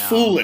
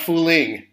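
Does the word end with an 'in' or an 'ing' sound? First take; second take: in; ing. First: The ending is a plain 'in' sound. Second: The ending is a full 'ing' sound. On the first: The speaker calls it right. "And it's Fooling" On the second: The speaker calls it wrong. "It's not Fooling"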